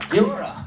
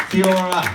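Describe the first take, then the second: First: Kia ora said again, a bit higher, KI-a O-ra; trying the Maori greeting Kia ora once more. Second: A visitor trying out the Maori greeting Kia ora; careful Maori greeting. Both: Shown as a demonstration. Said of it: "Not bad for an American".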